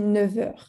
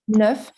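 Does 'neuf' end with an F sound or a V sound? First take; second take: V sound; F sound. First: The word ends with a V sound. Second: The word ends with an F sound. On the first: The number comes before the word for hours. "like as if there were a V at the end of uh, neuf" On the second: The number stands on its own. "when you only say uh, the word on its own"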